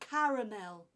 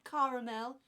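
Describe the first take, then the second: First: The word is said with three syllables. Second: The word is said with two syllables. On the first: The speaker calls it right. "Three syllables in that word" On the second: The speaker calls it wrong. "It's not caramel"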